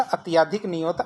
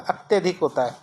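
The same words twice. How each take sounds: First: अत्याधिक with a long aa after य; teacher shows the wrong form as अत्याधिक with aa. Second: अत्यधिक with a short a after य; teacher says the correct अत्यधिक, short vowel; right form. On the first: Teacher demonstrates the wrong spelling, long aa. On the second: Teacher gives the correct form, short a. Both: Shown as a demonstration.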